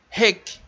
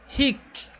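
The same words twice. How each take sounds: First: Rek com e aberto, firme; correct rek. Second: Rik com i fechado; wrong rik. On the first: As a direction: say rek with an open e. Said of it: "é". (pronúncia correta rek) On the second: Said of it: "Não é rik". (pronúncia errada rik) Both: Shown as a demonstration.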